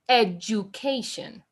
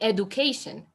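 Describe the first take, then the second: First: The middle consonant sounds like a J. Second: The middle consonant is a plain hard D. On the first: The speaker calls it right. "that D is pronounced like a J" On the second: The speaker calls it wrong. "I'm going to keep saying education"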